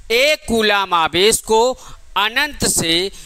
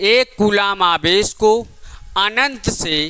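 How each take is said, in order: Both takes have the same delivery.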